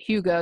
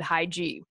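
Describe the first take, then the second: First: The word begins with a 'hoo' sound. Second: The word begins with a 'high' sound. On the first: The speaker calls it right. "Hugo is how you pronounce that" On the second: The speaker calls it wrong. "I would have said high G"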